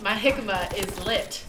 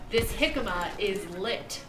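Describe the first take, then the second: First: It is said casually, without extra care. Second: It is said over-enunciated, every sound exaggerated.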